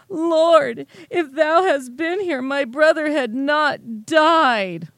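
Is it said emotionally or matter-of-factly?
emotionally. It is said in an emotional, complaining tone.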